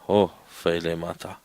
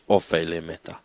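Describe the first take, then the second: First: The word starts with a breathy h sound. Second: The word starts softly with no h sound. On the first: "If that first one was like that, then it was" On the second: "It is soft"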